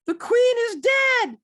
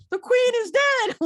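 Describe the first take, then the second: First: High, loud, slow shrieking proclamation; Monty Python shout. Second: High, loud shrieking proclamation; Monty Python shout. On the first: Passerby shrieking the news in the street, Monty Python style. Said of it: "She sounded like a Monty Python". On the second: Retelling the woman's street announcement, loud Monty Python shriek. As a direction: shriek it like a Python sketch lady. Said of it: "Literally, that was her voice". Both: Retold or imitated.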